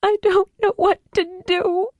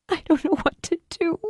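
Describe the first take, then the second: First: High, tearful wail; sobbing out her helplessness; broken, tearful plea; weeping. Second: High, helpless and lost; despairing. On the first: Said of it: "and wept". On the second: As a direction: at her wits' end. Julie before weeping. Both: Acted.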